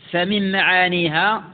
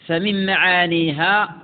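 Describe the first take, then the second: No difference in how they are said.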